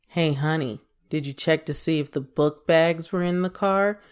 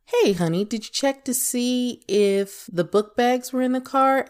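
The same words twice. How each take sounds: First: Pointed tone of voice. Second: Higher, lilting check-in with a partner; sweet tone of voice. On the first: Asking honey about the book bags in the car, pointed level tone. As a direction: ask it level, without any friendly lift. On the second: Asking honey about the book bags in the car, higher friendly tone. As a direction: lift the pitch into a friendly, open question. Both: Shown as a demonstration. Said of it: "That's tone of voice".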